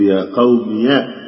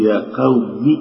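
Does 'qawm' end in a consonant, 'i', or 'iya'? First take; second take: iya; i. First: The word ends with the syllable 'iya'. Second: The word ends with a short 'i' vowel. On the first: "ولك أن تحركها بالفتح" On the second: "ولك أن تحذفها وتبكي كسرة قبلها"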